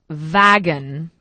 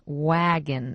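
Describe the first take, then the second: First: It begins with a v or g sound. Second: It begins with a soft w sound. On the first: The speaker calls it wrong. "not wagon" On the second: The speaker calls it right. "we say wagon"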